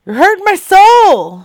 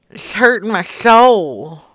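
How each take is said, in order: First: High, loud wounded cry; over-the-top hurt holler; mock anguished wail. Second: Restrained mock-hurt grumble; mock wounded. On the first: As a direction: wail it out, pitch leaping up. Complaint escalates to a wail. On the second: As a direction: lament it without raising the pitch. Complains of silence, first take.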